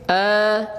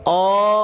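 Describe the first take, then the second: First: The vowel is light and thin, like a. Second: The vowel is heavy and rounded, like o. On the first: The speaker calls it right. "kita bacanya tipis" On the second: The speaker calls it wrong. "bukan O"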